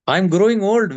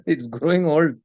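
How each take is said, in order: First: Put-on growing said louder and pressed, with a falling tune on old; stress on growing. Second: Said in the usual way. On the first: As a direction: lean into the word growing. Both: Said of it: "Look at my hairs".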